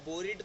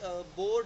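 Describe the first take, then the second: First: Said as two syllables, ending in 'id'. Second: Said as one syllable, the final e silent. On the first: The speaker calls it wrong. "हम इसे बोरेड या बोरिड तो नहीं बोलते" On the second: The speaker calls it right. "देखो अब जैसे बोर्ड है"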